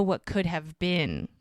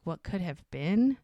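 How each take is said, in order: First: Said in the usual way. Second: WHAT COULD HAVE BEEN lifted into a question; questioning echo. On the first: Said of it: "She's like". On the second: Retold or imitated. Doc queries Mel's phrase, BEEN rising as a question. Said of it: "And he's like".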